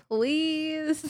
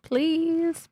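First: High, soft, pouting please; pouty please. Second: High, pleading, pouting please; pouty please. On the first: Child pleading with her father, pouting. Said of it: "that's exactly the face I would do". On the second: Girl pouting at the doctor to get her way, pleading. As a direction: beg with a big pout. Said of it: "pouty face". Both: Retold or imitated.

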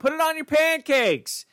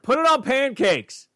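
First: High, slow whiny nag; nagging mom. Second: High, slow mock ad voice; sing-song slogan delivery; mock announcer. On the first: Pretend. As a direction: plead it out like a fed-up mom. Nagging repeated command. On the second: Repeats name, mock ad voice.

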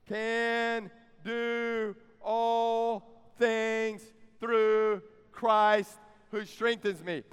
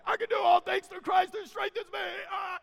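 First: Very slow, word by word, each one stretched; leading group recitation. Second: High, strained caricature of a pumped-up athlete; mock hype shout. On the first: Shown as a demonstration. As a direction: draw out every word so the congregation can join in. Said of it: "Say it with me". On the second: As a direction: bellow the verse like an over-hyped jock. Mocking athletes' misuse of the verse.

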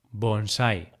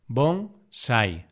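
First: Said in the usual way. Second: Bonsai split into bon, sai; syllable by syllable. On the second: Shown as a demonstration. Teacher dividing bonsai for learners, syllable by syllable. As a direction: say "bonsai" with a pause between syllables.

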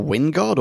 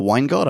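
First: "Wingard" with first syllable like "win"; short-i pronunciation. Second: "Weingard" with first syllable like "wine"; long-i pronunciation. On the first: Cohosts unsure of actor's name, "Wingard" with short i. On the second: Cohosts unsure of actor's name, "Weingard" said as WINE-gard. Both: Shown as a demonstration. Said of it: "how we're gonna say that".

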